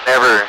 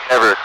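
No difference in how they are said.

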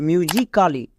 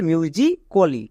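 First: "মিউজিক্যালি" with the silent a sounded as a full "kaa-li"; wrong pronunciation. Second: "মিউজিক্যালি" said slowly as "myu-ji-ko-li", a silent; correct pronunciation. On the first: English teacher shows learners the mistake, mispronounced "myu-ji-kaa-li". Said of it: "but এটা সম্পূর্ণ ভুল উচ্চারণ". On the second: English teacher gives learners the right form, slow "myu-ji-ko-li". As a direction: drop the a in "মিউজিক্যালি", ending in a rounded "ko-li". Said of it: "এর উচ্চারণ হবে". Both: Shown as a demonstration.

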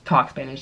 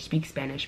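First: Said in the usual way. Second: "speak Spanish" muttered much softer as the fix; soft self-correction of "speak Spanish"; quiet correction. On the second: Shown as a demonstration. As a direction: correct "talk" to "speak Spanish" under her breath.

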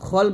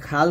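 First: "খল" with a thick kh and rounded o; rounded heavy vowel. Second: "খাল" with an open a sound; open a vowel. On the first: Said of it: "খল বলতে হবে". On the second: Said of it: "তবে খাল না বলে". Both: Shown as a demonstration.

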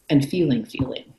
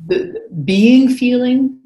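First: "feeling feeling" dropped lower and softer, unstressed; plain contrast phrase. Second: "being feeling" lifted higher and louder, drawn out slowly; stressed contrast phrase. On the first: Teacher contrasting two kinds of feeling, "feeling feeling" said low and soft. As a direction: let "feeling feeling" fall away low and soft. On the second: Teacher contrasting two kinds of feeling, "being feeling" stressed high and slow. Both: Shown as a demonstration.

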